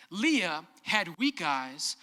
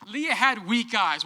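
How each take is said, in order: First: Said in the usual way. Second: "Leah had weak eyes" louder with "had" hit hard; louder comic retelling of "Leah had weak eyes"; punchy emphasis. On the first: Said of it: "Let me translate this ancient literature". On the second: Shown as a demonstration. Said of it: "What that means".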